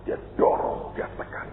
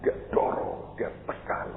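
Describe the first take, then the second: No difference in how they are said.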